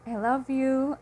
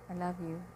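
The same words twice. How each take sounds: First: It is said clearly, with warm conviction. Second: It is said flatly, with no emotion. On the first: The person really loves you. "there is no mumbling, there is no whispering of words" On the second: The person lacks conviction. "without emotions"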